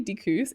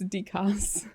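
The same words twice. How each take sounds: First: "dickus" ending in an oo sound; said as "dickoos". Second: "dickus" ending like the word cuss; said as "dee-cuss". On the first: Streamer reading chat's correction, "dickus" said as dickoos. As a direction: say "dickus" with -koos at the end. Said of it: "you say dickus". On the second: Streamer repeating chat's correction, "dickus" said slowly as dee-cuss. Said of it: "she doesn't cuss". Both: Shown as a demonstration.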